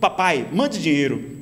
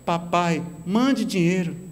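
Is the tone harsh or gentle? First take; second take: harsh; gentle. First: It is said in a harsh, demanding tone. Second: It is said in a gentle, pleading tone.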